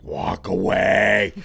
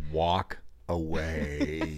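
First: Slow, drawn-out low warning; urgent hungry-hiker voice. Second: Slow, low, dragged-out warning; urgent hungry-hiker voice. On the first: Wife sending husband away, slow and low. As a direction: stretch each word, deadly serious. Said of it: "It's the same voice". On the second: Wife warning her husband off, low and slow. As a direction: drag it out low like a final warning. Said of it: "the same voice she uses when". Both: Retold or imitated.

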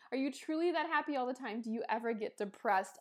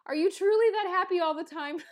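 First: Said in the usual way. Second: Reading the question out loud, high and loud, through a laugh; laughing disbelief. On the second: Real, not acted. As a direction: blurt it out, amused at the timing right after crying. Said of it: "What a funny question to ask right after that".

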